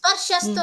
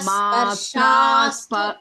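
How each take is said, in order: First: The vowel after sparsh is cut short. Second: The vowel after sparsh is held long. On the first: The speaker calls it wrong. "स्पर्शस्तु न भगिनी" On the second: The speaker calls it right. "मात्रा दीर्घ"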